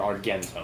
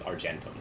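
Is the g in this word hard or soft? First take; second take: hard; soft. First: The g is hard, like in go. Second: The g is soft, like a j.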